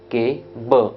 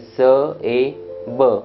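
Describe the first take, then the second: First: The word begins with a k sound. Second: The word begins with an s sound. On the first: The speaker calls it right. "इसलिए सी का उच्चारण क होगा, तो बनेगा के ब" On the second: The speaker calls it wrong. "सी का उच्चारण स ए और बी का उच्चारण ब, तो बन गया स ए ब"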